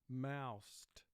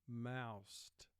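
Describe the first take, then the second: Both takes have the same delivery.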